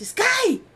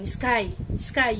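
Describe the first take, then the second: First: High, loud shout of a name; retold shout. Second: Restrained, serious call of a name. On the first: Pry yells at the motionless Sky, shouting. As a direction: imitate a sudden yell to snap someone out of it. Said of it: "Aí ele dá um grito". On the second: Retold or imitated. Pry calls to a frozen Sky, seriously. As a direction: call the name soberly, at normal volume. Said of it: "você vê o Pry tão sério".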